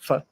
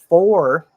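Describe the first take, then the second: First: The vowel is almost completely dropped. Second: The vowel is a full or sound.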